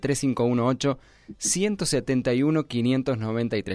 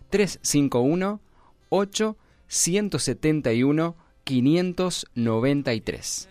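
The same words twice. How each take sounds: First: The number is said at a quicker pace. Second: The number is said at a slower pace.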